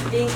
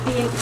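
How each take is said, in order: Both takes have the same delivery.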